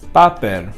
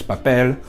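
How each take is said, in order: First: The stress is on the first syllable. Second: The stress is on the last syllable. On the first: The speaker calls it wrong. "if I were to change the accent to where this would be, it would be pronounced papel, which, you know, doesn't sound right" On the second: The speaker calls it right. "the stress will be at the very last syllable"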